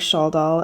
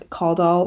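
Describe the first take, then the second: First: The name starts with a soft SH sound. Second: The name starts with a hard K sound.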